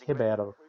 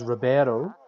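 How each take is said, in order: First: The name is said with Portuguese sounds. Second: The name is said with Spanish sounds. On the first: "in Portuguese is Ribeiro" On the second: "what we would normally pronounce as Ribeiro in uh, Spanish"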